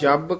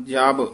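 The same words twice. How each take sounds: First: ਜਬ pressed tight on the b. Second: ਜਬ with a relaxed, light b; soft ਜਬ. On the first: Teacher warning a reader, ਜਬ said tight. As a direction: squeeze ਜਬ hard. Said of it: "ਕਸ ਕੇ ਨਹੀਂ ਬੋਲਣਾ". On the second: Teacher correcting a reader, ਜਬ said softly. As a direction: say ਜਬ loosely, without pressing. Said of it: "ਪੋਲਾ ਹੀ ਬੋਲਣਾ". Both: Shown as a demonstration.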